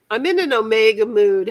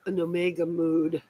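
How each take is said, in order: First: "I'm in an omega mood" said louder, each word landed; proud announcement. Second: Said in the usual way. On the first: Shown as a demonstration. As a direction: present "omega mood" like a catchphrase. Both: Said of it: "How's that sound?".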